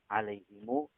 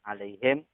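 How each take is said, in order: First: The final m is followed by a long u. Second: The word ends on a closed m sound. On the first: This is a different traditional reading. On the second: This is the usual reading.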